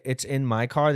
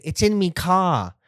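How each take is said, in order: First: Said in the usual way. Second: Mock British accent, higher and slow on "me car". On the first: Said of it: "they don't say". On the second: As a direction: mimic the British "It's in me car". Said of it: "They say".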